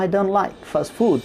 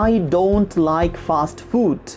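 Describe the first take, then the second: First: The t in don't is dropped. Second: The t in don't is pronounced. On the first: The speaker calls it right. "don't এর যে ট আছে তাকে বাদ দিয়ে দিচ্ছেন" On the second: The speaker calls it wrong.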